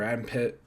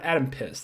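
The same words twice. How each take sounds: First: Adam ending in a crisp T sound, "Pitt"; "Adam Pitt" said as the name is written. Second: "Adam Piss" with a hissed S ending, deliberate; correcting himself to "Adam Piss" on purpose. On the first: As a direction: say "Adam Pitt" with a clean final T. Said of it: "yeah, you know what?". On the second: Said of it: "that's correct". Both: Shown as a demonstration.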